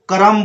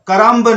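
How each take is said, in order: First: The word ends on m with no b sound. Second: The word ends with an audible b sound. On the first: The speaker calls it right. "करम बोलना है" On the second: The speaker calls it wrong. "करम्ब नहीं बोलना है आपको"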